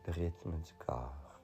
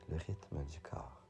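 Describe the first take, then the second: No difference in how they are said.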